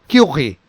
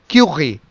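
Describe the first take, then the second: The two takes are said the same way.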